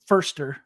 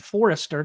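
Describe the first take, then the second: First: The name is said with two syllables. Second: The name is said with three syllables. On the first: The speaker calls it right. "he does pronounce it Forster" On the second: The speaker calls it wrong. "I always want to call him Forrester because that's what it looks like"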